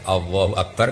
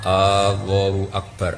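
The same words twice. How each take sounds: First: The first vowel is said short. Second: The first vowel is drawn out long. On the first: It states that God is the greatest. The speaker calls it right. "kan jelas itu kalam khobar" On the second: It asks whether God is the greatest. The speaker calls it wrong. "coba panjang. Jadi istifham kan?"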